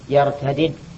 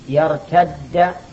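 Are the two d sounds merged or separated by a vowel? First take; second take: separated; merged. First: The two d sounds are separated by a vowel. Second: The two d sounds merge into one doubled d. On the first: "يجوز أن تقول يرتد وأن تقول يرتدد" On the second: "الإدغام جائز لا واجب"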